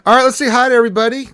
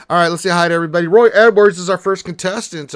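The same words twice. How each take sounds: First: Big, fast, shouted hello to chat; high-energy streamer welcome; loud hype greeting. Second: Excited streamer welcome; loud fast hype greeting. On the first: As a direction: boom it out to open the stream. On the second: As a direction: rattle it off loud and quick. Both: Real, not acted.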